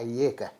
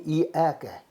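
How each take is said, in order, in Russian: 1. Начальные гласные сливаются в один дифтонг. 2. Начальные гласные произносятся как два отдельных звука. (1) "а ека" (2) "Не иэка"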